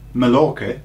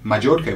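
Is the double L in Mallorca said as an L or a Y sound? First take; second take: L sound; Y sound. First: The double L is said as an L sound. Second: The double L is said as a Y sound.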